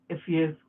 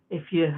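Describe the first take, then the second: No difference in how they are said.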